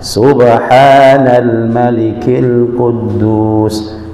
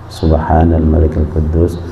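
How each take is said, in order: First: The phrase is said noticeably louder. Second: The phrase is said at ordinary volume.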